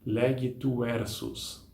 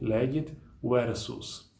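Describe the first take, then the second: First: The t is joined onto the next word. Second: The t stays with the first word, unlinked. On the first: The speaker calls it wrong. "não existe algo como é, legit versus. Não, nunca" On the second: The speaker calls it right. "Vai ser sempre legit versus"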